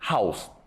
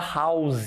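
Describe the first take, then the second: First: The word is short and clipped. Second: The word is drawn out and prolonged. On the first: The speaker calls it right. "a pronúncia correta é house" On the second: The speaker calls it wrong. "Olha só como a gente prolonga o som house"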